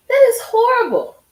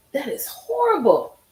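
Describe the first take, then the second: First: Much higher and louder, appalled; outraged cry. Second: Said in the usual way. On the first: Real, not acted. Host reacting to testimony, loud appalled cry. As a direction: shout out your disgust.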